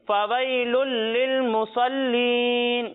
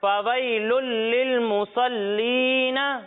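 First: The last word ends on a bare 'n' sound. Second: The last word ends with a short 'a' vowel.

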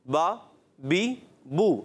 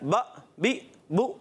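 First: Each syllable is released smoothly without a jerk. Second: Each syllable is cut off with an abrupt jerk. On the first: The speaker calls it right. "ये हरकत की अदायगी है" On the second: The speaker calls it wrong. "ये झटका है"

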